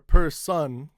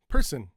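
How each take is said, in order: First: The second syllable has a full vowel, like sun. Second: The second syllable has a weak, reduced vowel. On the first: The speaker calls it wrong. "it's no longer per sun" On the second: The speaker calls it right. "it's person"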